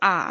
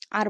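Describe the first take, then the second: First: আ as long "aa" without r; new pronunciation. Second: আর with the final r sounded; old pronunciation. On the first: Teacher shows how we will say R, new pronunciation. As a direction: leave আ open, drop the r. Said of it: "আর বলবো না, বলবো আ". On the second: Teacher shows how we used to say R, old pronunciation. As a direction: close আর on a clear r. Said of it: "আর বলতাম আগে". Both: Shown as a demonstration.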